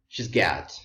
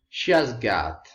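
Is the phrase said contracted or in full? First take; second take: contracted; full. First: The first two words merge into one syllable. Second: Every word is said separately in full. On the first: The speaker calls it right. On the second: The speaker calls it wrong.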